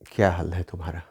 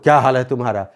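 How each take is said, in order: First: It is spoken in a soft, low voice. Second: It is spoken in a loud, forceful voice. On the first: It suits a romantic mood. The speaker calls it right. "आवाज़ धीमी होनी चाहिए। जैसे" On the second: It does not suit a romantic mood. The speaker calls it wrong. "ऐसे नहीं बोल"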